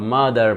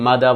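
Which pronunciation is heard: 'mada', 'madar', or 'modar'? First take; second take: madar; mada. First: It is said 'madar' with a final r. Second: It is said 'mada' with no final r. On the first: "মাদার বলতে পারেন, okay fine" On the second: "মাদা বলতে পারেন"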